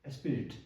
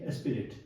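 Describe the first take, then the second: No difference in how they are said.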